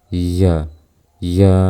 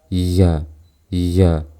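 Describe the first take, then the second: Both takes have the same delivery.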